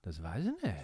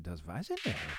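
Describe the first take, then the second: First: The voice falls flatly at the end. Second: The voice rises curiously at the end.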